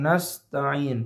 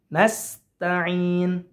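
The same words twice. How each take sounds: First: Nasta'in with the wrong sin, said slowly. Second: Nasta'in with a plain clear sin, slow; correct sin. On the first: Teacher showing the wrong nasta'in, slow. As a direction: slowly show the mistaken nasta'in. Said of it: "Bukan nasta'in". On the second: Teacher showing the correct nasta'in, slow. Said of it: "tapi nasta'in". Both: Shown as a demonstration.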